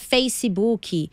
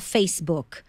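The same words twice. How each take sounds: First: It is said with a Brazilian Portuguese accent. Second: It is said with an English accent. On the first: "o abrasileirar" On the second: "a gente pode se habituar a falar Facebook"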